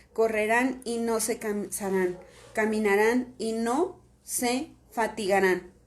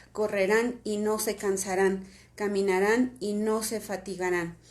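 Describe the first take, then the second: No difference in how they are said.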